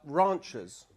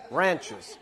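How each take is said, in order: First: "ranchers" in a British accent with a long open "rahn". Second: "Ranchers" in an American accent with a flat "ran" as in "can". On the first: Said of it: "ranchers is a little bit posh". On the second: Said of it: "you gotta say them in an American accent". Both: Shown as a demonstration.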